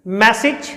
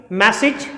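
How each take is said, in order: Both takes have the same delivery.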